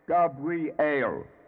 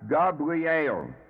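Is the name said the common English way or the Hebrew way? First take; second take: Hebrew; Hebrew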